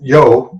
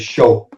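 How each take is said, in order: First: It starts with a 'y' sound. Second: It starts with a 'sh' sound. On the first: This is the usual way it is said. "instead of saying yo, yo" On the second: This is how it is said in Argentina. "they say show. Everything is with an S H"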